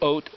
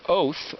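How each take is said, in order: First: The word ends with a plain T sound. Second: The word ends with a TH sound. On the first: "the Tav can sound like a T" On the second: "or a T H"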